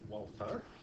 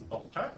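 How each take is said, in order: First: The name begins with a W sound. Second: The name begins with a V sound. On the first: The speaker calls it wrong. "that's why we don't pronounce it Walter" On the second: The speaker calls it right. "It's Volta"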